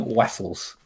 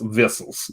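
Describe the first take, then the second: First: The word begins with a W-like sound. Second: The word begins with a strong V sound. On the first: The speaker calls it wrong. "in what accent is someone going Wessels?" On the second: The speaker calls it right. "really pronounces the V's like"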